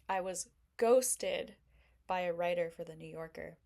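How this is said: It is said in a gloomy, self-pitying tone. Being ghosted is seen as a bad thing. "that's kind of like a glass half empty mentality"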